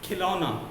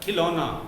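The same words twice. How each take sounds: No difference in how they are said.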